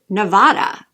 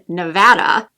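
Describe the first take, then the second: First: The middle vowel sounds like the vowel in 'father'. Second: The middle vowel sounds like the vowel in 'cat'. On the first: The speaker calls it wrong. "I too would probably correct somebody if they said Nevada" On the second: The speaker calls it right. "As someone that lives in Nevada"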